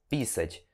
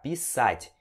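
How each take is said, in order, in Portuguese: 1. A sílaba tônica é a primeira. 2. A sílaba tônica é a última. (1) "com a parte mais forte aqui no Pi" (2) "a parte tônica desse verbo é no A"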